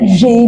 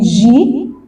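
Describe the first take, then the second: First: The letter name ends in an 'ay' vowel. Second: The letter name ends in an 'ee' vowel. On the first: This is the French letter name. The speaker calls it right. "هنا جي" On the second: This is the English letter name. The speaker calls it wrong. "مش جي"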